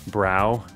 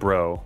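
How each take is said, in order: First: The vowel rhymes with cow. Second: The vowel rhymes with go. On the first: This is the American pronunciation. "U S is more like brow" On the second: This is the British pronunciation. "U K is more like bro"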